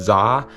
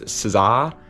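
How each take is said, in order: First: The name starts directly with a z sound. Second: The name starts with an s sound.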